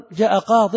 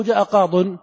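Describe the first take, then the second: First: "قاض" ending in -in, qaadin; kasra tanween. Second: "قاض" ending in -un, qaadun; damma tanween. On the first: Teacher asking students to choose, qaadin with -in. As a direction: finish "قاض" firmly on -din. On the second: Teacher offering the alternative answer, qaadun with -un. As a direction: finish "قاض" firmly on -dun. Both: Shown as a demonstration. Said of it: "جاء قاض أو جاء قاض".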